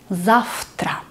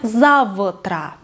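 First: The consonant before t is a voiceless f. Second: The consonant before t is a voiced v. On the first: The speaker calls it right. "Потому что у нас глухой звук «т»" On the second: The speaker calls it wrong. "Не завтра"

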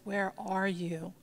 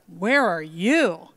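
First: It is said in a sweet, inviting tone. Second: It is said in a harsh, demanding tone.

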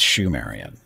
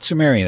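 First: The word begins with a sh sound. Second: The word begins with a plain s sound. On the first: The speaker calls it right. "it's Shumerian" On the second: The speaker calls it wrong. "It's not Sumerian"

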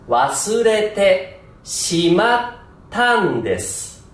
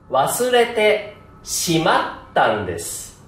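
First: The pitch drops sharply on the final n. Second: The pitch does not drop sharply at the end. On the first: The speaker calls it right. "正しい発音。" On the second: The speaker calls it wrong. "間違い発音。"

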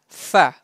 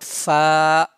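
First: The vowel is short and not stretched. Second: The vowel is stretched out long. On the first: The speaker calls it right. "Read it without stretchiness, without prolonging" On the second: The speaker calls it wrong. "not fa"

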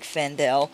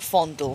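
First: The first vowel sounds like the vowel in 'fan'. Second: The first vowel sounds like the vowel in 'fond'. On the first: This is how the name is meant to sound. "I know it's supposed to be like Fandel" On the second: This is a joking nickname version of the name. "But Doug calls him Fondle"

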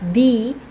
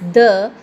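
First: It is the form used before vowel sounds. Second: It is the form used before consonant sounds. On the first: The next word starts with a vowel sound. "The will be pronounced as the with words that start with a vowel sound" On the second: The next word starts with a consonant sound. "The will be pronounced as the with words that start with a consonant sound"

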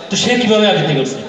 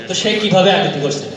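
No difference in how they are said.

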